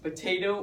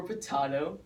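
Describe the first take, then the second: First: "potato" with the middle syllable as TAY; long A pronunciation. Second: "potato" with the middle syllable as TAH; broad A pronunciation. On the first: Explaining how the word can be pronounced, "potato" as puh-TAY-toh. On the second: Offering the other way to pronounce it, "potato" as puh-TAH-toh. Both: Shown as a demonstration. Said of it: "it can be pronounced potato or potato".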